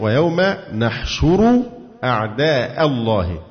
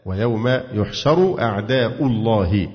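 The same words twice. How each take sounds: First: Slowly, "نحشر" with opening na- and u after sh; measured demonstration of "نحشر", nun first, "أعداء" in fatha; variant reading with nun. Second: Slowly, "يحشر" with opening yu- and a after sh; measured demonstration of "يحشر", ya first, "أعداء" in damma; variant reading with ya. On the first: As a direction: say "نحشر" as nahshuru, "أعداء" ending in -a. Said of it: "وتقرأ بالنون المفتوحة وضم الشين وفتح الهمزة". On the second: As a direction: say "يحشر" as yuhsharu, "أعداء" ending in -u. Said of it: "بالياء مضمومة ورفع أعداء". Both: Shown as a demonstration.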